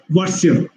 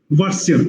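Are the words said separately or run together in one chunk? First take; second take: run together; run together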